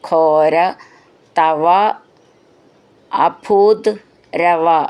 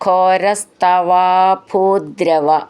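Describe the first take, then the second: First: The words are said separately. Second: The words are merged into one.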